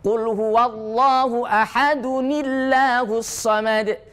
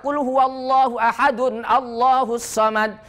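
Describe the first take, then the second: First: 'Ahadun' runs straight into 'llahus' without a break. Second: 'Allahus' starts afresh with its opening vowel. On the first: The speaker calls it right. "yang benar adalah cara wasol" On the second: The speaker calls it wrong. "Tidak boleh baca ... Ini cara baca yang tidak benar"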